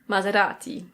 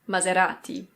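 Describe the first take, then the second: The two takes are said the same way.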